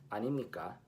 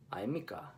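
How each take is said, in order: First: 아닙니까 with ㄴ sounded: a-nim-ni-kka; Seoul way, fast; crisp Seoul take; Seoul pronunciation. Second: 아닙니까 as 아이미까, ㄴ silent; lazy-tongue Busan take; Busan pronunciation. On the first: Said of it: "Seoul 말, it's". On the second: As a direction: Busan dialect contrast. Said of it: "In Busan 말". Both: Shown as a demonstration.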